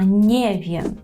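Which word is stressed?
nie. The stress falls on the word nie. The speaker calls it right. "а не вєм"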